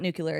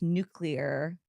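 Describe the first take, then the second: First: The ending is not said as 'clear'. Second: The ending is said as 'clear'. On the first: The speaker calls it wrong. "it's not nuclear" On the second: The speaker calls it right. "It's because it's like N U clear"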